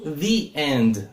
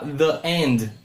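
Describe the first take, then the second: First: The word 'the' has a long ee vowel. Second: The word 'the' has a short reduced vowel. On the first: This form is the usual one before a vowel. "eu falo the end... antes de vogais se fala esse som de the" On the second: This form is also acceptable. "eu posso falar the end, pode, tranquilamente"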